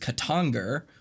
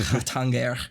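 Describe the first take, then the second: First: The word begins with a hard K sound. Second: The word begins with a breathy H sound. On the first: The speaker calls it wrong. "a lot of people read as" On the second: The speaker calls it right. "which is actually pronounced"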